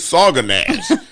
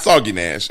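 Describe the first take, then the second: First: The first word ends in an 'uh' sound. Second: The first word ends in an 'ee' sound. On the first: The speaker calls it right. "this is Saga Nash" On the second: The speaker calls it wrong. "not Soggy Nash"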